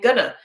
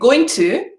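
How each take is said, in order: First: The words blend into one reduced word. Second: Both words are said fully and separately. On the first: The speaker calls it right. "try and say gonna" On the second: The speaker calls it wrong. "instead of saying going to"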